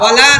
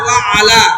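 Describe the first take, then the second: First: The words run together as one word. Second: The two words are kept apart. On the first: The speaker calls it wrong. "ওয়ালা না" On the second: The speaker calls it right. "না ওয়া আলা"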